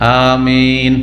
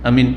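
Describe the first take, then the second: First: The vowel is drawn out and lengthened. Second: The vowel is said short, without lengthening. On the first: The speaker calls it right. "টান দিয়ে বলো, মাদ্দা" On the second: The speaker calls it wrong. "এটা হলো না"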